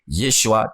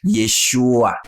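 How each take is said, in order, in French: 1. Le nom est prononcé sous une forme courte et contractée. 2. Le nom est prononcé sous une forme longue et allongée. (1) "la forme contractée" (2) "la forme rallongée"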